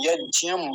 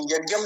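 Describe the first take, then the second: First: यज्ञम said slowly as yajiyam; correct yajnam. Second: यज्ञम said as yagyam with a hard g; the mistaken यज्ञम, hard g sound; यज्ञम as people wrongly say it. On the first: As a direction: Sanskrit यज्ञम, drawn out. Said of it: "यज्ञम ऐसा". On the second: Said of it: "यज्ञम नहीं बोलेंगे". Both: Shown as a demonstration.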